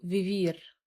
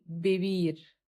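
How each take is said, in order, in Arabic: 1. تُنطق حروف v بصوت شبيه بـ v. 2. تُنطق حروف v بصوت شبيه بـ b. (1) "محدش يقول برضو فيفير، نو no" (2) "فبنقول بيبير"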